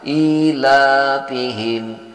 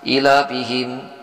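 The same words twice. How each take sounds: First: The vowel in 'ila' is held long. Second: The vowel in 'ila' is short. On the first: The speaker calls it right. "Padahal di sini i-nya panjang. Ila panjang" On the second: The speaker calls it wrong. "Ini sering tidak dipanjangkan. Ila langsung"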